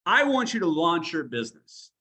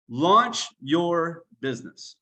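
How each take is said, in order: First: Said in the usual way. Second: Slow repeat, weight on launch; emphatic repeat. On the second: Shown as a demonstration. Coach to his team, slow emphatic repeat. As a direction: drive home launch your business, slowly. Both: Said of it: "And when I say launch".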